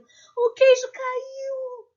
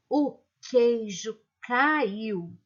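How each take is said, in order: First: It is said in a startled, frightened tone. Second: It is said in a flat, serious, almost angry tone. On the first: "como se estivesse espantada, morrendo de medo" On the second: "de um jeito muito sério"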